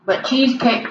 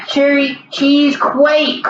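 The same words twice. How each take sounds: First: Said in the usual way. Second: "Cherry cheese quake" slowly, the word "quake" stretched out like earthquake. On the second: Shown as a demonstration.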